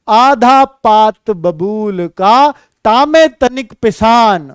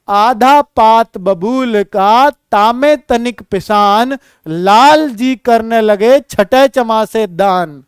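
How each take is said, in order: First: Slow, measured couplet recital; slow recitation. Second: Slow couplet recital, carefully paced; slow recitation. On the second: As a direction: recite it slowly for the class. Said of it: "बेटा देखना". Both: Shown as a demonstration. (धीमा दोहा पाठ)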